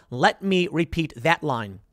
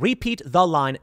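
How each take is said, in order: First: "Let me" stressed, spoken slowly. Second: Said in the usual way. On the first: Shown as a demonstration. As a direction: lean on "Let me", slow and deliberate.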